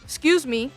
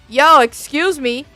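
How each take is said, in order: First: It is said at a normal, quiet volume. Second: It is said loudly and forcefully.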